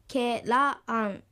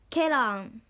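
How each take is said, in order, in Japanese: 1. 二番目の音節が高く発音されます。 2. 一番目の音節が高く発音されます。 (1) "本来であればケラーンのように発音されるはずですが" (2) "第一音節のケが高く発音されます"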